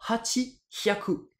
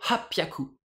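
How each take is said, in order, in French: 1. Deux mots séparés, sans changement de son. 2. Un seul mot fusionné, avec une légère coupure avant le p.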